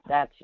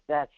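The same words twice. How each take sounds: The two takes are said the same way.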